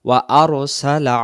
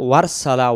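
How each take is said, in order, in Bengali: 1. দুটি শব্দ glottal onset দিয়ে আলাদা রাখা হয়। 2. দুটি শব্দ মিলিয়ে একটি করা হয়, গ্লোটাল অনসেট বাদ দেওয়া হয়। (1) "ওয়া আরসালা ওয়া আরসালা" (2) "এই শব্দটা যেন ওয়ারসালা ওয়ারসালা না হয়"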